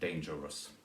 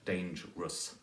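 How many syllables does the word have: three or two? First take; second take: three; two. First: The word is said with three syllables. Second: The word is said with two syllables. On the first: The speaker calls it wrong. "rather than" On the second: The speaker calls it right. "has to be pronounced as two syllables"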